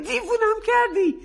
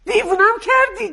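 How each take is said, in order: First: Weary repeat. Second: Higher, louder exasperated cry; angry outburst. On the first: Mother repeating to her daughter, tired and exasperated. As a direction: drop the volume, still exasperated. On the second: Mother blowing up at her daughter, exasperated shout. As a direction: throw it at her, fed up. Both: Acted.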